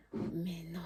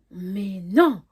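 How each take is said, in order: First: Low-volume, barely voiced denial; hushed disbelief. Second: Loud, emphatic denial; loud disbelief. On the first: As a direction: whisper it to yourself, not believing it. Incrédule, première réaction rejouée. (incrédulité chuchotée) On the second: Retold or imitated. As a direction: hit "non" hard, refusing to believe it. Incrédule, seconde réaction plus forte. (incrédulité, « non » lancé fort)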